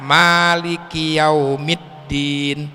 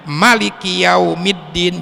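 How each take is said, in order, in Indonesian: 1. Vokal pertama pada maliki dibaca panjang. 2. Vokal pertama pada maliki dibaca pendek. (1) "memakai alif dipanjangkan" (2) "malikinya dipendekin, dihilangkan alifnya"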